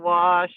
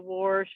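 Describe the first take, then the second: First: It has no added r sound. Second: It has an added r sound, Southern-style.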